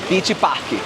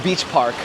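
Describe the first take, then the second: First: It has a Brazilian accent with an added final vowel. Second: It is said the plain American way. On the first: This sounds like a real Brazilian. The speaker calls it right. "put that little accent for fun at the end" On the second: This does not sound like a real Brazilian. The speaker calls it wrong. "you wouldn't say"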